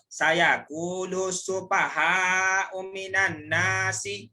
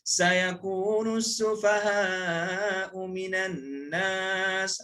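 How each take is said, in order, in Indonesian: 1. Kata terakhir berakhir dengan tambahan vokal. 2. Kata terakhir berakhir dengan jelas pada konsonan. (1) "jangan pula ... itu tajwid tak kena" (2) "bila baca tu cukup mat dia"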